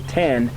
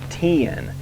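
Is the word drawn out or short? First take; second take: short; drawn out. First: The vowel is short and clipped in one syllable. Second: The vowel is drawn out, almost two syllables. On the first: The speaker calls it wrong. "If you're from up north and you go ten" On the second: The speaker calls it right. "you almost have to say it with a southern accent"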